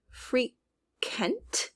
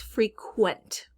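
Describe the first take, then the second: First: "frequent" said as "free-kent", no W glide; frequent without the W. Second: "frequent" said as "free-kwent", clear W glide; frequent with QU sound. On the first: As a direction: say "frequent" slowly with a bare K sound, "free-kent". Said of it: "we're not just hearing". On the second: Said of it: "We're really leaning into that U sound". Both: Shown as a demonstration.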